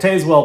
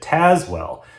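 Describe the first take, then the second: First: The name is pronounced as 'Tazewell'. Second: The name is pronounced as 'Tazwell'. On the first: "I like Tazewell better" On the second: "the narrator pronounced it Tazwell"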